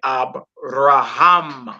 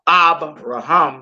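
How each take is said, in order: First: The stress falls on the last syllable. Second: The stress falls before the last syllable. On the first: The speaker calls it right. "you say Abraham" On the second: The speaker calls it wrong.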